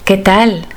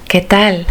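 No difference in how they are said.

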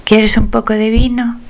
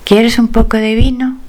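No difference in how they are said.

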